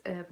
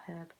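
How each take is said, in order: First: "herb" as ERB; American silent h. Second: "herb" as HERB; sounded h. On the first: Echoing American correction, "herb" with silent h. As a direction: say "herb" without the h. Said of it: "It's herb, not herb". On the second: Echoing American correction, "herb" with sounded h. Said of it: "not herb". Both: Shown as a demonstration.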